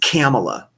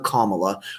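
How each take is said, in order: First: The first part sounds like the word camel. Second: The first part sounds like the word comma. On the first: The speaker calls it right. "like camel toe" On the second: The speaker calls it wrong. "We're not going to pronounce her Kamala"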